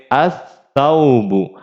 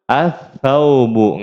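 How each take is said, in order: Both takes have the same delivery.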